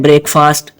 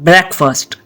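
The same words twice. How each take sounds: First: Break and fast are said as separate parts. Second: It is said as one blended word. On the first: The speaker calls it wrong. "ब्रेक अलहदा और फास्ट अलहदा" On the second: The speaker calls it right. "ये अकेले अकेले नहीं है"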